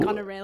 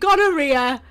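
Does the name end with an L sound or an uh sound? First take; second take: L sound; uh sound. First: The name ends in an L sound. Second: The name ends in an open uh vowel. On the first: The speaker calls it right. "you mean gonorrheal?" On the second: The speaker calls it wrong. "I pronounced the name gonorrhea"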